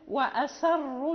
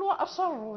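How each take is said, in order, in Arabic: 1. صوت السين خفيف ومرقق. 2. صوت السين ثقيل ومفخم.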